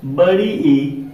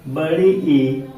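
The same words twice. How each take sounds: First: Said in the usual way. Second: "बड़ी ई" said very slowly, the ई held long; long stretched vowel. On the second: Shown as a demonstration. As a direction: draw out the ई in "बड़ी ई" like a teacher showing it. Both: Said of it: "में पढ़ा जाता है".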